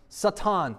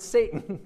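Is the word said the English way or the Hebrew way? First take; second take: Hebrew; English. First: The word is said with a Hebrew pronunciation. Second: The word is said with an English pronunciation. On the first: "that's how you pronounce it in Hebrew" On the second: "You pronounce it Satan, right?"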